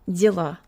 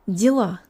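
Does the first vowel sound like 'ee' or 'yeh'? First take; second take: ee; ee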